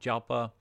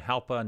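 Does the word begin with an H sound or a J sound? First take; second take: J sound; H sound. First: The word begins with a J sound. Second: The word begins with an H sound. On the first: The speaker calls it wrong. "not Jalpa" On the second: The speaker calls it right. "that's kind of like an H instead of a J pronunciation"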